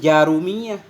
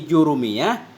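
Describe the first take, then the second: First: The first syllable has the vowel a. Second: The first syllable has the vowel u. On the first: This reading follows another scholar's account of the name's origin. "dibacakan akan dianya jurumiyah dengan fathah" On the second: This reading follows one scholar's account of the name's origin. "jurumiyah kita baca dengan dhammah jim"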